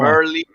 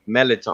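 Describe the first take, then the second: First: It is said slowly with every sound. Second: It is said fast with the r dropped.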